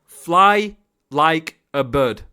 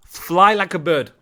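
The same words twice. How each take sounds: First: Very slow, word by word; slow emphatic repeat. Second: Said in the usual way. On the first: Real, not acted. Coach drumming an instruction into the player, slow and emphatic. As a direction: draw out each word, with gaps between.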